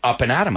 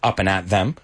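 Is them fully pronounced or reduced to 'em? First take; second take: reduced; fully pronounced. First: Them is reduced to a short em sound. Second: Them is pronounced in full with th. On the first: The speaker calls it right. "It has to be contracted or else it doesn't sound right" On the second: The speaker calls it wrong. "No one says up and at them"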